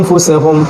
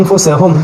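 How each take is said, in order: Both takes have the same delivery.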